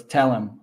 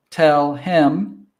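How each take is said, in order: First: "tell him" as "tellem"; casual "tell-im"; dropped H. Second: Careful two-word "tell him"; full form. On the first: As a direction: link TELL to HIM without the H. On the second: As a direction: TELL HIM separately, H sounded. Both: Shown as a demonstration. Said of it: "the H sound always drops out".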